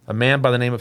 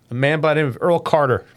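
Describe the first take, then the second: First: Said in the usual way. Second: A little laugh through tears; choked-up, recovering with a laugh; teary-eyed. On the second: Real, not acted. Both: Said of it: "I'm getting a little teary-eyed".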